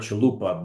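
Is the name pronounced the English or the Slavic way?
English. The name is pronounced the English way. "The English pronunciation is"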